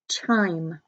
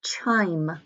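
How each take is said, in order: First: Said in the usual way. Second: Word whispered as a model. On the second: Shown as a demonstration. Teacher whispering the spelling word to students. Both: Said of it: "And number six".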